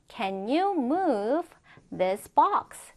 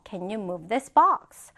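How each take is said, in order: First: Very slow, pause before THIS BOX; chunked model reading. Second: Slow but unbroken example question; joined-up model reading. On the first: Teacher first modelling a question for students, chunked model reading. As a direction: draw it out in two chunks for learners. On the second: Teacher repeating the question whole for students, joined-up model reading. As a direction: say the whole question through, slowly. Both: Shown as a demonstration.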